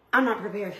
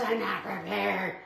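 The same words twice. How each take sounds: First: Said in the usual way. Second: Softer, muttered to herself; resigned muttered aside; quiet mutter. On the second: Real, not acted. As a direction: mumble it under your breath. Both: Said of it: "repeats the line, then mutters it".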